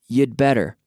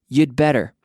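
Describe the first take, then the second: The two takes are said the same way.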